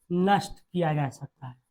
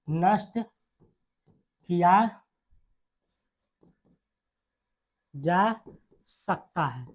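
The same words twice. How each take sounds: First: Said in the usual way. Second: Drawn-out words with long pauses; dictation. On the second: Real, not acted. Teacher dictating the rule to students, slow dictation. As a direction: dictate very slowly, dropping softer at the end.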